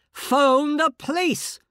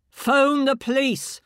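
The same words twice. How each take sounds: First: Loud, high, slow insistent bark; barking bullying order again. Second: Loud, high, slow barked command; barking bullying order. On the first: Inner voice repeats its order more insistently, loud bark. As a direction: hammer the order home. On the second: Inner voice barks orders at the shaken woman, loud and angry. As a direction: bark it like a bully. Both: Acted. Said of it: "this awful bullying voice, barking orders".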